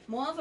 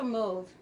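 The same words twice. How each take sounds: First: "Mauve" with an open AH vowel, like "mahv". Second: "mauve" with a long O, like "mohv". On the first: Asking viewers how they say it, "Mauve" as "mahv". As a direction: say "Mauve" to rhyme with suave. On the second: Asking viewers how they say it, "mauve" as "mohv". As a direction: say "mauve" to rhyme with stove. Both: Shown as a demonstration. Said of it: "How you say it?".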